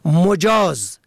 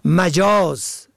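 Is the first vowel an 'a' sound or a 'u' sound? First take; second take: u; a. First: The first vowel is a rounded 'u' sound. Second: The first vowel is an open 'a' sound. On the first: Permitted, allowed. "به ضم اول" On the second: Figurative, not literal. "به فتح اول"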